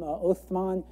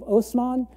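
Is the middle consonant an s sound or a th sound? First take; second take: th; s. First: The middle consonant is a th sound. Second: The middle consonant is an s sound. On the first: "where there's this certain TH sound" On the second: "this is the Turkish pronunciation"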